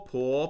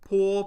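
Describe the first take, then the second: First: The pitch rises from middle to high. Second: The pitch stays high and level.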